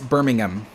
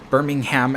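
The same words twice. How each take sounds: First: It is said with a British pronunciation. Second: It is said with an American pronunciation. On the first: The city in England is meant. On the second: The city in Alabama is meant.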